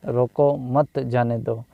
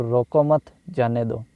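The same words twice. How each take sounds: First: "रोको" के बाद रुककर "मत जाने दो"; विराम का स्थान दिखाना. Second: "रोको मत" together, pause, then "जाने दो"; विराम का स्थान दिखाना. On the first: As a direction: pause after "रोको", then say "मत जाने दो". ("रोको" पर ठहरें, फिर "मत जाने दो") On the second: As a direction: break after "मत", before "जाने दो". ("रोको मत" साथ बोलें, रुककर "जाने दो") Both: Shown as a demonstration. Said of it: "उचित स्थान पर इसका प्रयोग ना किया जाए".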